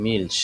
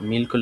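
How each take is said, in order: First: "মিল্স" as milsh, hushed final consonant; sh ending. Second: "মিল্কও" with a hard k after the l; k variant. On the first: Teacher showing how milk is said, "মিল্স" ending in sh. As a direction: close "মিল্স" on a palatal sh. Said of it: "এটা উচ্চারণ হচ্ছে". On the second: Teacher giving the alternative form, "মিল্কও" with k. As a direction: say "মিল্কও" as milk-o, with a clear k. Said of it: "মিল্কও লেখা যায়". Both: Shown as a demonstration.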